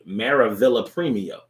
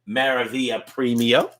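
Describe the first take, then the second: First: The name is said in an English accent. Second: The name is said in its original accent. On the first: The speaker calls it wrong. "if I said it in just English, it would be" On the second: The speaker calls it right. "I'm trying to say it in the accent"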